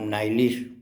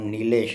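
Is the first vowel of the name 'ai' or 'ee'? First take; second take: ai; ee. First: The first vowel sounds like 'ai'. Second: The first vowel sounds like 'ee'. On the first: Someone else mispronounced the name. The speaker calls it wrong. "मेरा नाम नाइलिश pronounce करता था" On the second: This is the speaker's real name. The speaker calls it right. "मेरा नाम नीलेश है"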